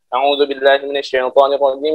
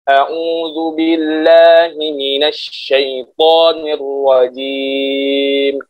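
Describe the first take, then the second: First: It is recited very quickly. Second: It is recited slowly and deliberately. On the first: Quick repetition for memorizing. "dengan cara hadar" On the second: Careful reading to avoid mistakes in pronunciation. "Kalau misalkan tartil"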